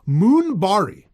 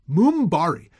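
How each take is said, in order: First: The first vowel is a long 'oo' sound. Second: The first vowel is a long 'oo' sound.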